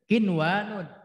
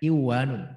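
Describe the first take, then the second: First: The n sound is pronounced clearly before the w. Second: The n sound is merged into the following w. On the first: The speaker calls it right. "Kinwanun, bukan kiwanun" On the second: The speaker calls it wrong. "bukan kiwanun"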